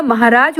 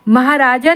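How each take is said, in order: First: Said in the usual way. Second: महाराजा ending in long aa; wrong form. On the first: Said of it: "महाराज होता". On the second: Shown as a demonstration. Teacher rejects a misspelling, महाराजा ending in aa. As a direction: sound the final -jaa of महाराजा. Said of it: "महाराजा नहीं होता".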